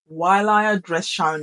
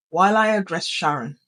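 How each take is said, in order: First: Sudden robot tone. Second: Lower, icy monotone; sudden robot tone. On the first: Teacher turning from class to Sharon, sudden monotone. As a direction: drop into a firm monotone. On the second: Teacher demonstrating the tone for addressing Sharon, cold monotone. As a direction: drop the pitch and level it out. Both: Shown as a demonstration. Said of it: "it just suddenly takes that tone".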